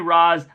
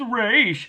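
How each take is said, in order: First: The name ends with an s sound. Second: The name ends with an sh sound. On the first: "I say Ra's" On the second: "it's a pronounced Raish"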